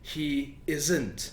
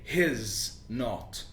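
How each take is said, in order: First: The last two words join into one word. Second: The first two words join into one syllable. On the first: "the verb and the negative word not" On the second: "with the pronoun and the verb"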